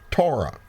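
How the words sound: It is said with an English pronunciation. "I am speaking English, and so I pronounce it Torah"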